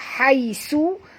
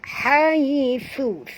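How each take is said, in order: First: The middle consonant is a plain s sound. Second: The middle consonant is a th sound. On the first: The speaker calls it wrong. "Kalau tuan-tuan baca baca haisu, huruf sin ini" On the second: The speaker calls it right. "sentilkan lidah baru betul makhraj sa"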